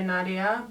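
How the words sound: The name is said the English way.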